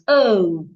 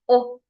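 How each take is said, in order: First: The letter is said with a non-Nigerian pronunciation. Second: The letter is said with a Nigerian pronunciation. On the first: The speaker calls it right. "The right way to pronounce this letter is O" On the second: The speaker calls it wrong. "An average Nigerian will pronounce this letter here as O"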